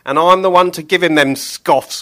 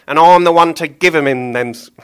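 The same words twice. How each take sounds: First: Loud, higher gleeful butcher; grinning Billy. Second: Loud higher butcher, stumbling; fluffed Billy line. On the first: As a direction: say it with a grin, finally right. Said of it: "grinned Billy". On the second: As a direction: trip over the line mid-voice. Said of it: "take that again". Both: Acted.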